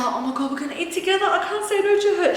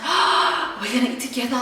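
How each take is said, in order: First: Higher and rushing at the end, mock panic; mock excited panic. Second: Mock excitement. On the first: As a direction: build into giddy, fast fake alarm. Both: Retelling her own nervous excitement.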